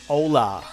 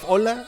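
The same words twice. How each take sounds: First: The o is a gliding English-style vowel. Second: The o is a pure open Spanish vowel. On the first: The speaker calls it wrong. "They speak it like with an English accent. So they are like" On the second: The speaker calls it right. "Instead of"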